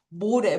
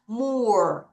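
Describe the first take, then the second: First: The final E is sounded as an extra syllable. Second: The word ends on the R with no vowel. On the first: The speaker calls it wrong. "얘를 알파벳대로 발음하면 모래" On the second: The speaker calls it right. "O, R, E 한꺼번에 갑니다. 이가 소리가 안 나요"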